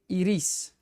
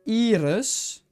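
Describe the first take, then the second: First: The name is said the Spanish way, shorter. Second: The name is said the Dutch way. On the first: "in Spanish, you say iris" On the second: "In Dutch, you would say iris"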